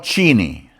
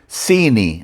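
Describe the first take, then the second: First: The word begins with a different, non-s sound. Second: The word begins with a plain s sound. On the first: The speaker calls it wrong. "not Chini" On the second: The speaker calls it right. "It pronounced it's pronounced Sini"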